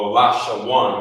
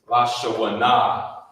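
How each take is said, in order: First: The word ends on the consonant 'n' sound. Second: The word ends with an extra final 'a' vowel. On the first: The speaker calls it right. "it would just be uh, La Shawan" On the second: The speaker calls it wrong. "Instead of saying La Shawana"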